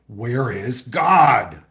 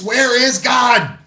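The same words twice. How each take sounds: First: It is said more sternly and louder. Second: It is said very loudly and sternly.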